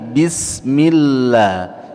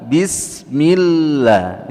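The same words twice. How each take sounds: No difference in how they are said.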